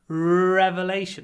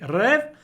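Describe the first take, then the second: First: The first vowel is drawn out long. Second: The first vowel is short and clipped. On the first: The speaker calls it right. "I make the re really long" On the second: The speaker calls it wrong. "I don't say rev"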